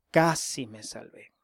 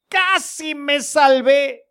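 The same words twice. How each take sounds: First: Whispered, much softer lament. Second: Slow, drawn-out sigh of regret; sad lament. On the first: Pretend. A damned soul whispering his loss, hushed whisper. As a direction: breathe the words out with no voice. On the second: Retold or imitated. The damned man sighing over his near miss, slow lament. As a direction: let it drag with regret, slowly. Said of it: "Pero qué triste diría".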